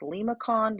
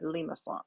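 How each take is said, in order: First: The C is pronounced as a hard K sound. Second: The C is pronounced as a soft S sound. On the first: Some people say it this way. "I've heard this word pronounced limacon" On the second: This follows the French spelling. "the cedille here tells me that's a soft C. So I would pronounce that limason"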